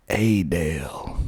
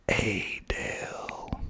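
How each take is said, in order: First: "Adel" as AY-dale, drawled and falling; local pronunciation. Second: "Adel" in a long soft whisper, ay-DALE; local pronunciation, whispered. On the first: Naming the next town for listeners, "Adel" drawled AY-dale. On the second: Repeating the town name for listeners, "Adel" softly whispered and stretched. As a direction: whisper "Adel" slowly, stretching both syllables. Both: Shown as a demonstration. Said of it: "that's how they say it".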